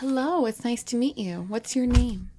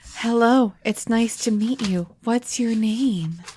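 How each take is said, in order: First: The greeting is spoken quietly. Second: The greeting is spoken loudly. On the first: The speaker calls it wrong. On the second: The speaker calls it right.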